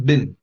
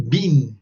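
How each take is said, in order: First: Been said as bin, short i, American style. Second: Been said long, like bean, British style. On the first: Teacher modelling American been. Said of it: "in American English, they say been". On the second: Teacher modelling British been for students. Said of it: "in the United Kingdom, they say been". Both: Shown as a demonstration.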